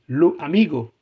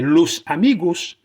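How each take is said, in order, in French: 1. Le s final est omis. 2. Le s final est clairement prononcé.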